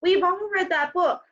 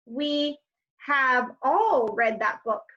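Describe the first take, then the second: First: Said in the usual way. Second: Contraction spelled out slowly; each word apart, unhurried; slow, separate words. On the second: Shown as a demonstration. Teacher showing the full form slowly.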